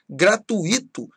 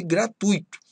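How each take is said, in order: First: First "gratuito" said gra-tu-Í-to, stress on I; hiatus mispronunciation. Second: "gratuito" said gra-TÚI-to, stress on U; diphthong pronunciation. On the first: Teacher showing an error, "gratuito" as gra-tu-Í-to. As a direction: split "gratuito" into four syllables, hitting the I. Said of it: "falar gratuito ao invés de gratuito". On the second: Teacher giving the correct form, "gratuito" as gra-TÚI-to. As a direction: keep UI as one stressed syllable in "gratuito". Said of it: "ao invés de gratuito". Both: Shown as a demonstration.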